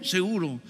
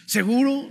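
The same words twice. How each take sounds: First: Retold reassurance, "Seguro" dropped at the end; assuring. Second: "¿Seguro?" pitched high with a rising end; retold hopeful question, "¿Seguro?" swung upward. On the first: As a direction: answer "Seguro" as a settled fact. Brother assures him. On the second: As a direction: ask "¿Seguro?" eagerly seeking assurance. Pastor asks for assurance.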